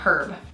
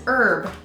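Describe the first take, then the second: First: The word starts with an audible h sound. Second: The word starts with a vowel, no h sound. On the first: This is the way the French would not say it. "and not herb" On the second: This is the French way of saying it. "they do not pronounce the H"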